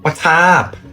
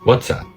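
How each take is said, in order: First: It is said in a Thai accent. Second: It is said in an American accent.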